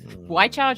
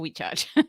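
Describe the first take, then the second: First: The first syllable sounds like 'why'. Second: The first syllable sounds like 'we'. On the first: The speaker calls it right. "it's either we or why" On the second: The speaker calls it wrong. "it's either we or why"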